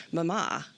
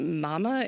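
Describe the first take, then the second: First: "Mama" with the stress on the second syllable; British-style mama. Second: "mama" with the stress on the first syllable; American mama. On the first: Student actor struggling with a stage line, British-style muh-MAH for "Mama". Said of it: "a line where I had to say". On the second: Student asking to say it differently, American MAH-muh for "mama". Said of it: "may I say, uh, mama instead". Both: Shown as a demonstration.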